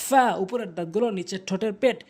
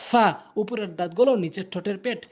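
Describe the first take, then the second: Both takes have the same delivery.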